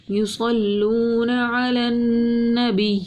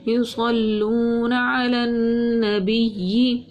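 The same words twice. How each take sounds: First: یصلون علی النبی repeated, long vowel stretched six counts; Quranic recitation. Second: یصلون علی النبی with the long vowel drawn out a full six counts; Quranic recitation. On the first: Tajweed teacher repeats the long madd, slow drawn recitation. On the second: Tajweed teacher shows the six-count madd, slow drawn recitation. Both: Shown as a demonstration. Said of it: "چھ الف کے برابر ہم کھینچتے ہیں".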